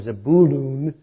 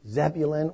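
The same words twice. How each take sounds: First: The name has an Israeli Hebrew pronunciation. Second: The name has a usual English pronunciation.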